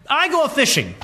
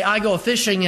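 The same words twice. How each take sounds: First: Put-on lifted high, old-fashioned declaration; Peter's solemn words. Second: Said in the usual way. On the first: Preacher voicing Peter's resolve to disciples, lightly raised declaration. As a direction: announce it like a fisherman going back to his trade. Peter's quote, set against ours. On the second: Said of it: "you and I may say".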